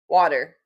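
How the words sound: The word has only a light regional accent. This is how the word is normally said. The speaker calls it right. "that sounded good"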